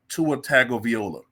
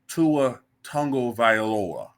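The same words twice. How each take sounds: First: The surname is sounded out letter by letter. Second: The surname uses its established pronunciation. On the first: The speaker calls it wrong. "Because I'm looking at it, I want to say" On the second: The speaker calls it right. "But apparently his name is"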